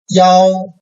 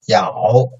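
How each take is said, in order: First: The pitch stays high and level. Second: The pitch dips low, then rises slightly.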